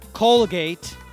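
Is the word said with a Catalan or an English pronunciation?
English. It is said with an English pronunciation. The speaker calls it right. "the right answer is"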